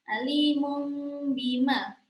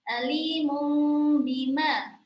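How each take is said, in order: No difference in how they are said.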